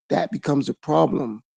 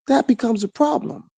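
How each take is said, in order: First: Said in the usual way. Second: "That" jumps high, line rises to the end; emphatic rising repeat. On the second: Acted. To his listeners, driving the point home with a high rising "That". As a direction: repeat it higher, pushing up on "That".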